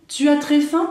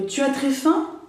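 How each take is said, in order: First: Tu as très faim rising as a question, louder; question tune. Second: Said in the usual way. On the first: Shown as a demonstration. Teacher turning the example into a question for students.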